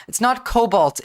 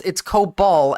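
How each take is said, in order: First: "cobalt" said like the metal, KOH-bawlt; name the wrong version "cobalt" with a full L; wrong word cobalt. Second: "cobol" said KOH-bol with no T at the end; correct word cobol. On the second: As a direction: set "cobol" right with a short open O. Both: Shown as a demonstration.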